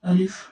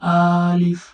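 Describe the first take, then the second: First: The vowel is kept short, without stretching. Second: The vowel is drawn out long. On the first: The speaker calls it right. "এরকম টান ছাড়া পড়তে হবে" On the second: The speaker calls it wrong. "এরকম পারা যাবে না"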